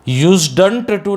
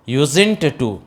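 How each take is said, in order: First: The d sound is pronounced in the word. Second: The d sound is silent in the word. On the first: The speaker calls it wrong. "यूज्डंट to नहीं" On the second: The speaker calls it right. "डी तो silent हो ही जाएगा"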